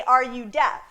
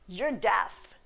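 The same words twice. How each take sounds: First: "deaf" posed as a question; simple question on "deaf"; questioning inflection. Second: Matter-of-fact assertion ending down on "deaf"; blunt statement. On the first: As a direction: ask it, leaving "deaf" open as a query. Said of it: "That's a question". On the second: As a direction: lower statement tune dropping on "deaf". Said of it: "that's rude". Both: Shown as a demonstration.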